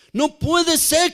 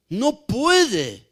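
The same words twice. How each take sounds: First: Higher, slow, stretched out no puede ser; emphatic repeat. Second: Said in the usual way. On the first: Shown as a demonstration. Preacher pressing the congregation, slow emphatic stress. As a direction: drive the point home, slowly.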